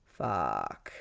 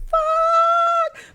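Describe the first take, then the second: First: Very low, soft curse under the breath; deflated curse. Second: Very high, loud drawn-out curse; panicked scream. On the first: Storyteller cursing to herself after monarch butterflies smacked her in the face, low deflated curse. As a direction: drop it low and quiet, resigned. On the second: Storyteller hearing that her friend is coming right now, panicked high scream. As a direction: shriek it long in comic panic. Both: Retold or imitated.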